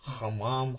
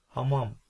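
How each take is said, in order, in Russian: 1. h — твёрдый, хриплый звук из горла. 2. h — мягкий выдох, почти неслышный. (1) "когда вы говорите твердо" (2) "я на самом деле называю эту букву, но может казаться, что ее нет"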